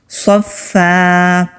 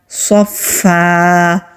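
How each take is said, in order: The two takes are said the same way.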